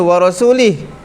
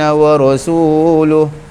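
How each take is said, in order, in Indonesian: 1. Kata terakhir berakhir dengan bunyi 'ih'. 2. Kata terakhir berakhir dengan bunyi 'uh'. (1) "Yang betulnya wa rasulih" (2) "kesalahan seorang lelaki baca"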